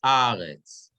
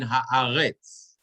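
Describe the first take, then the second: First: Haaretz stressed on the middle syllable, ha-A-retz; teacher showing Haaretz stressed on the aleph. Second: Haaretz stressed on the last syllable, ha-a-RETZ; teacher showing Haaretz stressed on the final syllable; stress on the reish. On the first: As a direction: lean on the A of Haaretz, then let retz fall away. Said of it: "The accent is on the Aleph". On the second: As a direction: keep the start light and land hard on retz in Haaretz. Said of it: "If it's under the Reish". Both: Shown as a demonstration.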